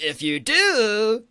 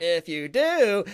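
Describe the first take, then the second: First: Slow, high, loud movie drama; dramatic trailer voice. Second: Slow, loud radio-host shout; Good Morning Vietnam voice. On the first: Pretend. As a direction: stretch it like a film trailer. Dramatic film-trailer take. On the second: Retold or imitated. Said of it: "Good Morning Vietnam thing".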